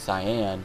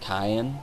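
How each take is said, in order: First: It is said like the color word cyan. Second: It is not said like the color word. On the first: The speaker calls it right. "his name must be Cyan" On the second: The speaker calls it wrong. "When I was younger and playing this game, I actually called him Cyan"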